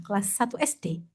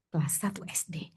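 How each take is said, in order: First: Said in the usual way. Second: Hushed echo of Kelas satu S D; whispered repeat. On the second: Shown as a demonstration.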